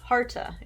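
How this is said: The name is pronounced in a Western way.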